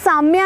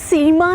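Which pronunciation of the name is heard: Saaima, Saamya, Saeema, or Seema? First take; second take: Saamya; Seema. First: The name is said as 'Saamya'. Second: The name is said as 'Seema'. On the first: "ना साम्या है" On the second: "ना सीमा है"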